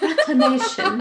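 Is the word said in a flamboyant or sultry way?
flamboyant. It is said in a showy, flamboyant voice.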